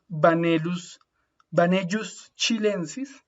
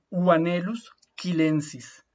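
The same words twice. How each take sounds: First: "Vanellus chilensis" slowly, LL as Y and CH as in Chile; the Spanish-style mistaken reading; wrong pronunciation. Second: "chilensis" with a hard K, "kilensis"; correct Latin. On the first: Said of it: "Si lo pronunciáramos mal". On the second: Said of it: "la pronunciación correcta". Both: Shown as a demonstration.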